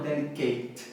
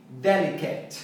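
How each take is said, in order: First: "delicate" ending like "Kate"; wrong pronunciation. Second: "delicate" as DEL-i-ket, short last vowel; correct pronunciation. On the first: Teacher shows what to avoid, "delicate" mispronounced ending KATE. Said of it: "e não". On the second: Teacher models it for learners, "delicate" ending in short KET. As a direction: stress DEL and keep the end of "delicate" short. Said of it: "e não delicate". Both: Shown as a demonstration.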